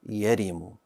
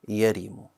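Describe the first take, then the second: First: The first syllable has the vowel a. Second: The first syllable has the vowel a.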